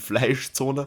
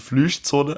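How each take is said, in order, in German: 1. Der erste Vokal klingt wie deutsches ei. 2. Der erste Vokal klingt wie deutsches ü.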